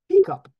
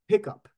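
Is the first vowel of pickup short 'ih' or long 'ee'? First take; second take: long ee; short ih. First: The first vowel is a long 'ee' sound. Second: The first vowel is a short 'ih' sound.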